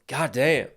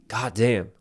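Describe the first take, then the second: First: It sounds impressed and pleased. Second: It sounds frustrated and annoyed.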